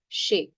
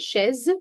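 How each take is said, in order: First: The word ends on a vowel sound. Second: The word ends with a z sound. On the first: The speaker calls it right. "No, chez" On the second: The speaker calls it wrong. "Z, chaise"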